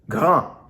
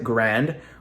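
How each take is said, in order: First: The word ends without audible N and D sounds. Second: The word ends with audible N and D sounds. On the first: "in French, you pronounce this word grand" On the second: "Most of us would pronounce it grand"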